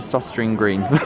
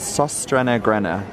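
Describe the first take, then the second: First: The name is said with English-style vowels. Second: The name is said with Danish-style vowels. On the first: The speaker calls it wrong. "I say ... definitely not correct" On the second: The speaker calls it right. "apparently it's"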